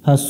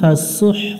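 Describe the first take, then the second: First: It ends on a plain vowel without breath. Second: It ends with a breathy throat h sound. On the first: The speaker calls it wrong. "ফাসু হবে না" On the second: The speaker calls it right. "হলকের মধ্য থেকে একটু বাতাস বের করে উচ্চারণ করতে হবে"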